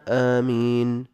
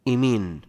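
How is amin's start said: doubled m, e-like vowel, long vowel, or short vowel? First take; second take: long vowel; e-like vowel. First: The first vowel is long and the m single. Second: The first vowel leans toward an e sound. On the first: "أفصحهن وأشهرهن آمين بالمد والتخفيف" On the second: "بالإمالة"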